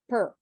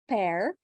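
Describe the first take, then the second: First: The vowel is a reduced 'er' sound. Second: The vowel is a clear 'air' sound. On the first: The speaker calls it right. "it's uh per" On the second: The speaker calls it wrong. "it's not pair"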